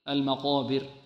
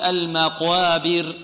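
First: The long vowel after q sounds full and heavy. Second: The long vowel after q sounds thin and light. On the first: The speaker calls it right. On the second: The speaker calls it wrong.

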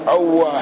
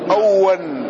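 First: The w is doubled and the final h is silent. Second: The w is doubled and it ends in -han. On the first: "أوه بفتح الهمزة، ... وتشديد الواو والسكون" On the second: "ويقال بنصب الهاء منونا"

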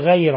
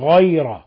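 First: The first consonant sounds thin and light. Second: The first consonant sounds full and heavy. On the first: The speaker calls it wrong. "لا نقول غير" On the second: The speaker calls it right. "ولاحظ تفخيم الغين، وإنما نقول غير"

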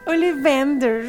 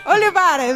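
First: The name is said as Ollivanders. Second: The name is said as Olivares. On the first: The listener understood the name at once. The speaker calls it right. "Aí chega o seu jovem nerd e fala Ollivanders" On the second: The listener did not understand the name. The speaker calls it wrong. "Where is the Olivares attraction?"

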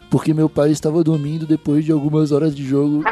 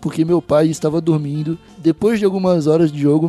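First: It runs on with no pause after dormindo. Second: There is a pause for breath after dormindo. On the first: The speaker calls it wrong. "ele não gosta de vírgula" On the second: The speaker calls it right. "Eu tô arrumando pausa para respirar aqui"

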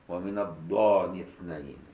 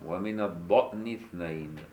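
First: The middle word has a long vowel, no stop. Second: The middle word has a glottal stop.

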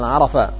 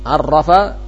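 First: The middle consonant is short and single. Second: The middle consonant is held long and doubled. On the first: "Ini juga merubah arti" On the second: "Penghilangan tasydid"

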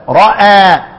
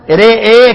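First: The final vowel is a fully open 'aa'. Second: The final vowel leans strongly toward 'ee'. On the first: "الفتح هكذا" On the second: "الإمالة"

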